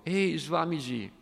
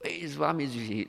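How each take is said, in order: First: High, loud call "Ehi"; hippie shouting. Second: Hippie voice. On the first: Young hippie calls out to the Swami, loud and high. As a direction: yell it across the hall, pitched up. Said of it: "si alzò e gridò". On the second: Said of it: "Classico fricchettone". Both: Acted.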